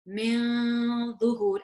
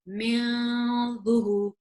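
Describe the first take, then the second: The two takes are said the same way.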